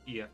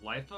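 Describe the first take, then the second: First: The name begins with a vowel sound. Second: The name begins with an L sound. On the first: The speaker calls it right. "Ifa is the correct way to say it" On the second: The speaker calls it wrong. "I was just reading it wrong"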